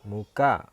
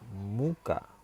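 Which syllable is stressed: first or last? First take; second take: last; first. First: The stress is on the last syllable. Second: The stress is on the first syllable. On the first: "satu di akhir" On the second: "satu di awal"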